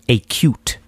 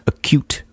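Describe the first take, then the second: First: It sounds like two words, a cute. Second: It is said as one word, acute. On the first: The speaker calls it wrong. "you're saying acute. Look at that cute frustration" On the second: The speaker calls it right. "Acute rather than"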